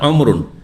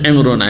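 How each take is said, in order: First: The first vowel is a rounded 'u' sound. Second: The first vowel is a front 'i' sound. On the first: This is the more widely used form. "প্রসিদ্ধ যে আরবি সেটি হচ্ছে অমরুন, আইনে দম্মা দিয়ে, পেশ দিয়ে" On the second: This is the less widely used form. "অপ্রসিদ্ধ যেটা হচ্ছে এমরুন, আইনে জের দি, কাসরা দি"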